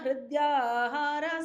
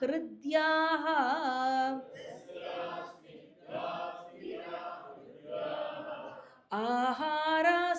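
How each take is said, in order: First: The words run together without a breathy sound. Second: The words are split with a breathy h sound. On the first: "நம்ம மொத்தமா சொன்னா" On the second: "நம்ம சந்தி பிரிச்சு சொல்றச்சு அந்த இடத்துல விசர்க்கம் வரும்"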